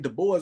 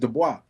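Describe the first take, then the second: First: The name has an English pronunciation. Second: The name has a French pronunciation. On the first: This is how English speakers say it. The speaker calls it wrong. "They say Du Bois because that's how they pronounce it in English" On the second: This is his real name. The speaker calls it right. "It's Du Bois"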